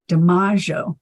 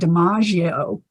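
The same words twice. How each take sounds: First: The name is said the Italian way. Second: The name is said the familiar American way. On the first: The speaker calls it right. "in Italy, that name's pronounced DiMaggio" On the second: The speaker calls it wrong. "I always heard the name Joe DiMaggio pronounced like that"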